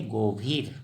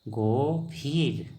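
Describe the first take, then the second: First: Said in the usual way. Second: गंभीर drawn out slowly, Assamese style as gobir; slow clear pronunciation. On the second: Shown as a demonstration. Teacher to viewers, spelling out गंभीर very slowly. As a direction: stretch every sound of गंभीर for learners. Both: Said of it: "क्या बोलेंगे?".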